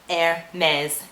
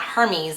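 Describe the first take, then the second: First: The name is said with French pronunciation, like air-mez. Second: The name is said with English pronunciation. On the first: The speaker calls it right. "it's to be pronounced in French" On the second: The speaker calls it wrong. "not Hermes as it would be translated into the English term"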